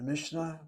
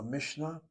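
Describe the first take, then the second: First: Mishnah in three syllables, MISH-uh-nuh; Mishnah loosened into mish-uh-nah; first pronunciation of Mishnah. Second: Mishnah in two syllables, MISH-nuh; Mishnah tightened to mish-nah, no middle vowel; second pronunciation of Mishnah. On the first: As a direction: say Mishnah with a short extra vowel after the sh. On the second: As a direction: say Mishnah with sh running straight into n. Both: Shown as a demonstration. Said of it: "two different pronunciations".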